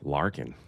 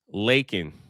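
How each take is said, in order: First: The name is said with an R sound. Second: The name is said without an R sound. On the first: The speaker calls it wrong. "Where'd I get the R from?" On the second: The speaker calls it right. "I got to get that right"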